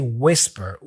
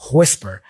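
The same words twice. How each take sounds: First: The first sound is plain without extra air. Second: The first sound has an extra puff of air. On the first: "we usually say whisper" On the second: "there's this extra puff of air that he is employing here"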